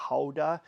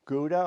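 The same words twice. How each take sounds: First: Gouda said as "HOW-da"; Dutch pronunciation. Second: Said in the usual way. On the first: Shown as a demonstration. Giving viewers the Dutch name, Gouda as "HOW-da". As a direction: start Gouda with an H in place of the G. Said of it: "as the Dutch say". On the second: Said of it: "or as the Dutch say".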